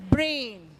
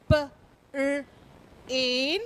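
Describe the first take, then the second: First: Said in the usual way. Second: "P", "R", "in" as separate sounds; sounded out. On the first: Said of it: "then the whole word". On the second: Shown as a demonstration. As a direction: split brain into "P, R, in" with gaps. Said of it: "let's look at some words".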